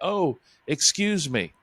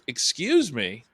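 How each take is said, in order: First: It sounds polite and apologetic. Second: It sounds indignant and challenging.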